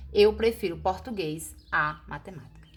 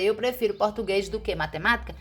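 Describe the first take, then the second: First: Said in the usual way. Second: Fast, offhand wrong sentence; wrong version. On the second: Shown as a demonstration. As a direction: toss off the mistake quickly. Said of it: "Em vez de você dizer".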